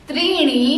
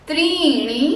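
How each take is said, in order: The two takes are said the same way.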